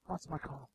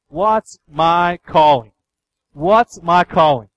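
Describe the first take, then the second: First: Very soft, low, almost to oneself; hushed question. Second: Drawn-out, louder, each word weighted; slow, emphatic question. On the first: Preacher echoing the question we all look for, hushed. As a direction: drop to a low murmur. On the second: Preacher voicing what people ask him about life, slow and emphatic. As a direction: ask it slowly and forcefully. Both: Retold or imitated.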